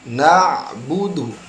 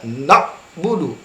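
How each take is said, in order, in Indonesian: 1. Ain halus dan lentur di tenggorokan. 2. Ain ditekan keras dan kaku. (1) "pengucapannya masuk ke tenggorokan dan ada kelenturan" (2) "tidak demikian ya"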